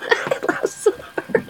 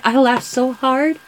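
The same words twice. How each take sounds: First: Breathy laughing whisper, slow; words nearly lost in laughter. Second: Said in the usual way. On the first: Real, not acted. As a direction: say it through real laughter.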